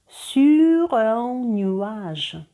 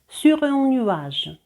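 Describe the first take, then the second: First: The phrase is said slowly. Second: The phrase is said at normal speed.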